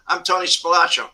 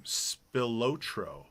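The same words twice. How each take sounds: First: Spilotro said as spuh-LAH-tro, stress on LAH; Tony Spilotro with a short, open LAH; Tony's own pronunciation. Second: Spilotro said slowly as spill-OH-tro, long open O; slow, careful Spilotro with the stress on LO; the father's pronunciation. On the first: Retold or imitated. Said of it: "that's how Tony called himself". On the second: Shown as a demonstration. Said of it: "how Spilatro's father pronounced the name".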